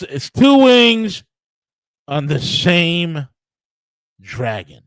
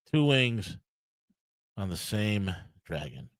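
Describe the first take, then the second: First: "two wings" high, loud and stretched out; emphatic punchline. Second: Low, soft and slowing to the end; subdued punchline. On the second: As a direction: let it sink quietly, with pauses before "on the same dragon". Punchline repeated in resigned undertone. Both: Real, not acted.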